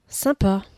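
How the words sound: It trails off with a half-hearted, unimpressed tone. The speaker is unimpressed and indifferent. "avec ses trois petits points. Là, c'est le bof à la parisienne"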